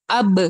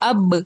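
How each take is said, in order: The two takes are said the same way.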